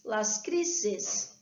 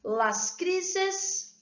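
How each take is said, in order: First: Said in the usual way. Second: Las crises lifted high with stress on crises; teacher shows Spanish plural las crises. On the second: Shown as a demonstration. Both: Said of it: "vamos lá".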